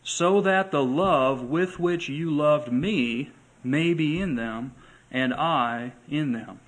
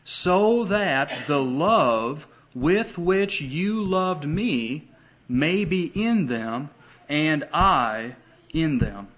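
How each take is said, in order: First: A quicker, firmer re-read of "So that the love"; re-read for emphasis. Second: Slow, lifted, deliberate reading; slow scripture reading. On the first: Shown as a demonstration. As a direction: say it again, stressing "that". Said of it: "Did you catch that?". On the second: Acted. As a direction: draw each word out slowly. Reading the verse aloud.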